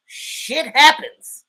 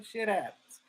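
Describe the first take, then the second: First: "shit happens" loud, high and drawn out; emphatic. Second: Soft, throwaway "shit happens"; offhand shrug. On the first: Real, not acted. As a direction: punch out both words slowly, "SHIT HAPPENS". Emphatic repeat about the Eagles. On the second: Acted. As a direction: toss off "shit happens" quietly. Shrugged-off first take of phrase.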